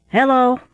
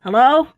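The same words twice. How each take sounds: First: Loud, high hail across the pier; sailor's gruff hail; gruff shout. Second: Louder, higher hail with a rise; a second gruff shout from the cask; repeated hail. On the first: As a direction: call out to stop the boy. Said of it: "shouted a gruff voice". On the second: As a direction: hail him again, harder. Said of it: "said he again". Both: Acted.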